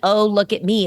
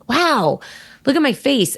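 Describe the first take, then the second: First: It sounds vain and showing off. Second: It sounds genuine, sweet and delighted.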